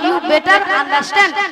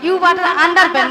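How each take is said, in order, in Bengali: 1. বাক্যাংশটি স্পষ্ট 'understand' দিয়ে শেষ হচ্ছে। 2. বাক্যাংশটি বিকৃত 'under ben' দিয়ে শেষ হচ্ছে। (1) "বলো ইউ বেটার আন্ডারস্ট্যান্ড" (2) "মাসি ইউ বাটার আন্ডার বেন নয়"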